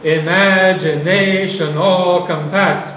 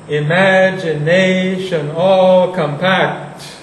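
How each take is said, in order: First: "Imagination" hit hard, "all compact" lighter; accentual reading. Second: Slow, each syllable weighted, "all" leaned on; slow, even stresses. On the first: Teacher showing an accentual foot to students, stress on "Imagination". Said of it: "an accentual foot". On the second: Teacher showing students one way to read the line, slow. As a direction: drag out "Imagination all compact" evenly. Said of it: "You can read it like that". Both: Shown as a demonstration.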